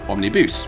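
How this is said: The word is said with a French pronunciation.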